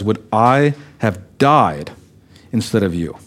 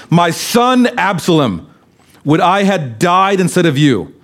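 First: Tender grief. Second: Grieving lament. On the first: Acted. Preacher dwells on David's grief. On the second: A narrator's reading. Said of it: "deeply moved ... and wept".

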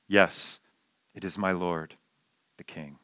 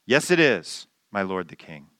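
First: Soft, low, respectful answer fading to nearly nothing. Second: Mild mock yell. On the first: Retold or imitated. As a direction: speak humbly to the king. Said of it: "respectful tone".

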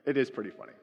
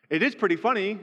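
First: Said in the usual way. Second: "is" pushed up high and loud, conceding with emphasis; stress on is. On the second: Real, not acted. Pastor admitting to congregation it is funny, stressing "is". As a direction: hit "is" hard, higher and louder.

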